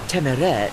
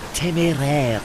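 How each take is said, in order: First: The name is pronounced with an English pronunciation. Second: The name is pronounced with a French pronunciation. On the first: The name lost its French accents and became anglicized. The speaker calls it right. "They were given everyday common or garden E's, which I inherited. Hence" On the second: The name keeps its original French form. The speaker calls it wrong. "they had two acute E's in their name"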